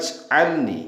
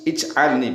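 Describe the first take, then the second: First: The opening vowel is dropped, linking to the previous word. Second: The word starts with a clear 'ij' sound. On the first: The word is read joined to the word before. "kalau dibaca wasol, dibaca sambung" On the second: The word is read on its own, separated. "kalau diputus-putus dibaca ij, ij'alni begitu"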